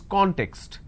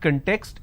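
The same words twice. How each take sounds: First: The stress is on the first syllable. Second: The stress is on the second syllable. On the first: The speaker calls it right. "it's context" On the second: The speaker calls it wrong. "It's not context"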